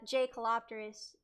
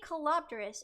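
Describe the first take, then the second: First: The name begins with a hard J sound. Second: The name begins with a soft Y sound. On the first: The speaker calls it wrong. "it's not like uh J Colopterus" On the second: The speaker calls it right. "It's like yay, but it's it's it's not it's it's a soft J"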